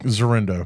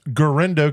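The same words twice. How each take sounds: First: "Zerendo" begun with a Z sound; mispronounced name. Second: "Guerendo" begun with a hard G; corrected name. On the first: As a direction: say "Zerendo", Z in place of G. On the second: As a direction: say "Guerendo" with G, not Z. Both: Real, not acted.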